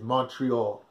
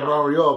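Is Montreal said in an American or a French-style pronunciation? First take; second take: American; French-style. First: The name is said in an American English style. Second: The name is said in the local French style. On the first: It follows how Americans say it. "The American pronunciation is Montreal" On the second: It follows how the city's residents say it. "you pronounce it Montreal because that's the way they pronounce it"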